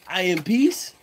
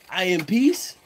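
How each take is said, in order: First: It sounds hesitant, almost like a question. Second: The same.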